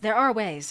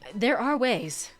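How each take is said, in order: First: It is said in Kanan's character voice. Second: It is said in a voice not Kanan's.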